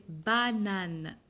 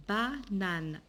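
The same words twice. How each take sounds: First: Said in the usual way. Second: "banane" split as ba, then nane; syllable by syllable. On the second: Shown as a demonstration. Teacher modelling banane for pupils, split into syllables. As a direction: break "banane" in two with a small gap.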